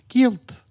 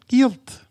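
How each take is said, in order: The two takes are said the same way.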